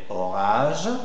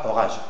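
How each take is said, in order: First: The stressed vowel is drawn out long. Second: The stressed vowel is short and clipped. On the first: The speaker calls it right. "mais orage" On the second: The speaker calls it wrong. "c'est pas orage"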